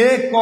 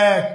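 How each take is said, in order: First: এ ক as separate "e... kaw"; name the letters এ ক with close "e"; spelled-out letters. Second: এক said as "æk"; open e. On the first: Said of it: "এক না বলে". (এ ক বানান ধরে উচ্চারণ) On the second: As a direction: open the vowel of এক to "æ". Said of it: "আমরা কি বলি". (এক-এর উচ্চারণ "অ্যাক") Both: Shown as a demonstration.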